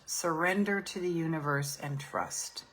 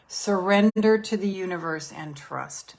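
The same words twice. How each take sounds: First: Surrender said much softer, almost hushed; softer repeat of surrender to the universe; soft mantra. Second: Surrender said out firmly; firm repeat of surrender to the universe; firm mantra. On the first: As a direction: let the mantra sink down to a hush. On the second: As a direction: state the mantra with full conviction. Repeated mantra, stronger take. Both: Shown as a demonstration.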